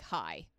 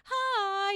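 First: Very low, soft, short greeting; guarded low voice. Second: Very high, drawn-out sing-song greeting; sing-songy. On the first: Woman greeting gas station clerk late at night, guarded and low. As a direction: drop it right down to sound less vulnerable. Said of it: "I also will change my voice". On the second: Comic showing her college habit, high sing-songy voice. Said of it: "you know, sing-songy voice". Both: Shown as a demonstration.

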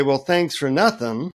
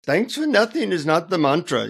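First: Understated, acted annoyance; a touch of sarcastic irritation in your own accent; mildly pissed off. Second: Put-on higher-pitched Indian-accented guru. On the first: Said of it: "I'm totally pissed off now". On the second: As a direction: echo it reprovingly in an Indian accent. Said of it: "in an Indian accent".

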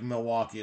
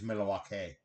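First: Said in the usual way. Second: Milwaukee stretched into "Milly-wah-kay"; a singer's pronunciation. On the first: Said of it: "just like Milwaukee is Milwaukee". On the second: Retold or imitated. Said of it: "according to a singer".

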